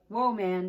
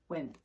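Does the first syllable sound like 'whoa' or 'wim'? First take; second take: whoa; wim. First: The first syllable sounds like whoa. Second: The first syllable sounds like wim. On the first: The speaker calls it wrong. "It looks like it should say whoa man" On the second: The speaker calls it right. "It says women"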